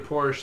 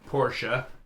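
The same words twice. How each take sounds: First: It is pronounced the common American way. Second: It is pronounced the original German way. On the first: This is how most Americans say the name. The speaker calls it wrong. "Most Americans say Porsche" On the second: This is the name's actual pronunciation. The speaker calls it right. "it's actually Porsche"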